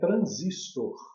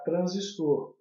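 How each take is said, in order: First: The stress is on the second syllable. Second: The stress is on the last syllable. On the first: This is how most people say it. The speaker calls it wrong. "Muita gente, aliás a maioria, fala transistor" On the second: This matches how Brazilians say resistor. The speaker calls it right. "Eu prefiro falar transistor"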